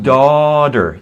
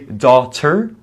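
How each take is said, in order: First: The middle T is a soft flap. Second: The middle T is a crisp full T. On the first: The speaker calls it right. "In American English" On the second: The speaker calls it wrong. "but that's a little formal and sounds weird"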